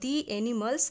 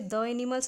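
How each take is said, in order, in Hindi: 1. 'The' को लंबे 'dee' स्वर के साथ बोला जाता है। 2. 'The' को छोटे 'duh' स्वर के साथ बोला जाता है। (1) "हम दी एनिमल्स प्रोनाउंस करेंगे" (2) "यहाँ पे द एनिमल्स नहीं"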